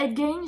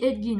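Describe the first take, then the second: First: The second syllable sounds like 'gain'. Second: The second syllable sounds like 'gin'. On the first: This is the form the speaker does not use. "je dis pas Edgain" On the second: This is the form the speaker uses. "je dis Edgin, moi"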